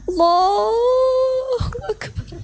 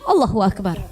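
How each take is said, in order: First: It is said slowly and earnestly. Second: It is said fast and hurried.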